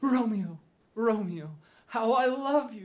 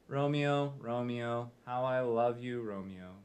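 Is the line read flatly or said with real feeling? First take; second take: real feeling; flatly. First: It is said with real, believable feeling. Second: It is read flatly, like from a script.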